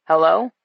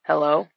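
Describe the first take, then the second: First: Louder second hello, rising; louder repeated hello. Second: Said in the usual way. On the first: A narrator's reading. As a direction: call hello again, louder. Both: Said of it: "he asked again".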